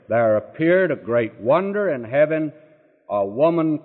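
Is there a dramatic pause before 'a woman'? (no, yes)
no. 'A woman' flows on without a marked pause. The whole image of the clothed woman is the wonder. The speaker calls it right.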